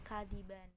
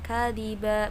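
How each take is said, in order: First: The word ends with an n sound. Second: The word ends on a long a vowel. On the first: The speaker calls it wrong. "atau kadiban" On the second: The speaker calls it right. "kalian harus membacanya dengan kadiba"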